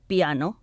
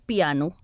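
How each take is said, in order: First: The word ends with an o vowel. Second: The word ends with a u vowel. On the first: It means to play softly. "els escrivim i pronunciem com en italià" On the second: It names the musical instrument. "ho pronunciem amb el so U al final"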